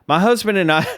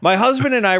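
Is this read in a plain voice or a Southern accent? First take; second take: Southern accent; plain voice. First: It is read in a Southern American accent. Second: It is read in the speaker's normal voice. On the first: "I go right to a southern accent" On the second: "I'll just read it"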